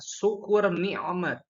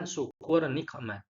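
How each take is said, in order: First: The middle consonant is a throat catch, not a k. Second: The middle consonant is a deep k sound. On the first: It means blessing or favor. The speaker calls it right. "pengucapan yang benar adalah" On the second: It means punishment. The speaker calls it wrong.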